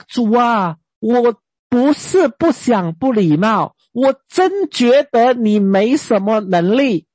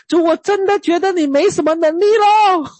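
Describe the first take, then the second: First: Slow, blunt mock complaint to God. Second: Higher, sulky mock complaint, falling on 咯; pouting complaint. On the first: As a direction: drag it out, half daring God. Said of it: "你敢这样跟神讲吗". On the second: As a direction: sulk it out to God like a child. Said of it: "老实说，我真的跟神讲啊".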